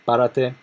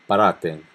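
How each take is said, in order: First: "párate" stressed on the first syllable, "pá". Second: "parate" stressed on the middle syllable "ra"; second-syllable stress. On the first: Teacher giving the tú command, first-syllable stress. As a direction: hit the opening syllable of "párate", higher. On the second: Teacher giving the vos command, stress moved to "ra". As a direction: move the accent of "parate" onto "ra". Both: Shown as a demonstration. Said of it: "accent on a different place".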